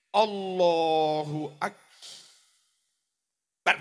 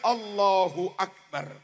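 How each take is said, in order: First: Akbar is split by a break in the middle. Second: Akbar flows without any break in the middle. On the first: The speaker calls it wrong. "Enek sing maca difasih-fasihno. ... Kok ana saktah dipisah kuwi piye? Ora kena" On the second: The speaker calls it right. "Langsung mawon mengalir"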